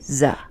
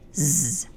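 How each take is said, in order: First: The z sound is followed by a vowel. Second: The z sound is said alone, without a vowel. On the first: The speaker calls it wrong. "Don't say z. You don't want to attach it to any vowel" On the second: The speaker calls it right. "It's zebra, z"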